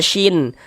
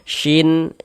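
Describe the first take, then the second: First: The syllable ends with a clear n sound. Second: The same.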